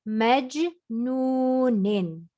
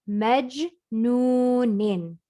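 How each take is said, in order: Both takes have the same delivery.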